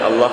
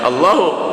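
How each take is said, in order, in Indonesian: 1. Kata ini berakhir pada konsonan h. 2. Kata ini berakhir dengan vokal pendek u. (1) "tidak boleh dibaca Allah" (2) "harus dibaca Allahu"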